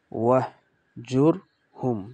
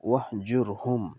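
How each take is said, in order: First: ওয়াহ, জুর, হুম আলাদা আলাদা; one syllable at a time; split syllables. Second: ওয়াহজুরহুম এক টানে; joined reading. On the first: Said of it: "কেমনে পড়ব?". (ওয়াহ জুর হুম ভেঙে পড়া) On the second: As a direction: blend it into one word. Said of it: "একসাথে সম্পূর্ণ মিলিয়ে পড়লে". (ওয়াহ জুর হুম সম্পূর্ণ মিলিয়ে পড়া) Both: Shown as a demonstration.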